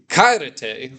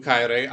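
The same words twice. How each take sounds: First: "Kairete" said with a little more lift; plural greeting. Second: Said in the usual way. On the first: Shown as a demonstration. Teacher shows the right greeting for the whole class. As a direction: say "Kairete," greeting many people at once. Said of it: "I would say". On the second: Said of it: "I wouldn't say that".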